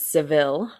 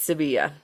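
First: The name ends with an 'l' sound. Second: The name ends with a 'ya' sound. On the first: This is how Americans usually say the name. The speaker calls it wrong. "us filthy Americans usually pronounce it as Seville" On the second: This is how the name is said locally. The speaker calls it right. "I'm gonna pronounce it the correct way"

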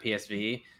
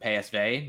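First: The letters are spoken with English letter names. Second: The letters are spoken with Dutch letter names. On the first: This is the familiar way long used by the hosts. "not PSV" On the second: This is the local way of saying the name. "transition to calling them PSV"

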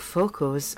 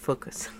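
First: The word is said with an Italian accent. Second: The word is said with a plain English accent.

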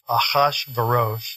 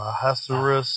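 First: The name is pronounced the Hebrew way. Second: The name is pronounced the English way. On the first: "I think it's easier to say in Hebrew" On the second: "how do we say it in English?"

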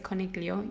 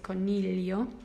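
First: The gl is said with a hard g. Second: The gl is said as a palatal l. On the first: The speaker calls it wrong. "But you never pronounce the G. You don't say coniglio" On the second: The speaker calls it right. "you say coniglio"

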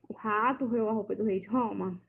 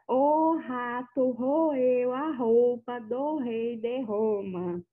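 First: The words are articulated in a normal way. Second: The words are articulated with exaggerated mouth movements.

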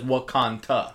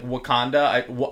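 First: The word is said with a t sound. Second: The word is said with a d sound.

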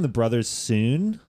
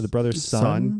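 First: The last word is said with a long oo vowel. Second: The last word is said with a short uh vowel. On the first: The speaker calls it wrong. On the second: The speaker calls it right.

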